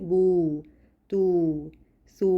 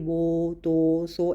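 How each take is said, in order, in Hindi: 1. होंठों को कसकर गोल करने से साफ़ 'oo' स्वर निकलता है। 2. होंठों को ढीला सा गोल करने से 'oh' जैसी आवाज़ निकलती है।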